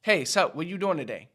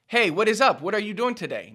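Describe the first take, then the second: First: "sup" and "what you doing" clipped and relaxed; natural casual. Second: "what is up" every word spelled out, high and loud; overly proper. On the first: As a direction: toss it off casually. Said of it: "The second one". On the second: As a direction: say "what are you doing today" stiffly in full. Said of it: "Nobody says that". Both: Shown as a demonstration.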